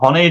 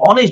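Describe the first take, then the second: First: The word starts with an audible h sound. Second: The word starts directly with a vowel sound. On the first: The speaker calls it wrong. "এটাকে আমরা হনেস্ট বলি না" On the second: The speaker calls it right. "আমরা এটাকে বলি অনেস্ট বলি"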